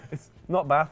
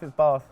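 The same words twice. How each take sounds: First: "Bath" said with a short flat northern a, like "bath" in Birmingham; the Midlands "Bath", short vowel. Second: "Bath" said with a long southern ah, "Barth", a bit louder. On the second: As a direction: stretch "Bath" into a posh "Barth". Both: Shown as a demonstration.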